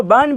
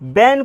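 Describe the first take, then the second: First: बन with a short "uh", like English "bun"; alternative short vowel. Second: बैन with an open "ae", like English "ban"; open "ae" reading. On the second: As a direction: say बैन with a wide front vowel. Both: Shown as a demonstration. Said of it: "बैन को बन भी पढ़".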